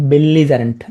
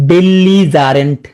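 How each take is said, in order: First: Said in the usual way. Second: "belligerent" stretched out slowly; slow drill. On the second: Shown as a demonstration. Teacher drilling a word taught before, slow and stretched. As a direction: draw out each syllable of "belligerent".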